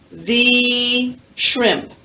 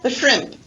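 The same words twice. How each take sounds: First: The word 'the' is full, strong and stressed. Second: The word 'the' is short, weak and unstressed. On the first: There is only one single shrimp. "the waiter emphasizes there's only one shrimp" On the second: It is an ordinary order for shrimp. "he uses the reduced form, the. Listen"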